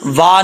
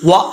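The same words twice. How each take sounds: First: वा drawn out as a long aa, the wrong way; wrong long vowel. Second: व short and clipped, lips rounded; short correct vowel. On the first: (वा लंबा खींचकर, गलत तरीका) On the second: (व छोटा और होंठ गोल) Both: Shown as a demonstration. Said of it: "वा नहीं पढ़ेंगे".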